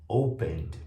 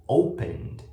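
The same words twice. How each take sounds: The two takes are said the same way.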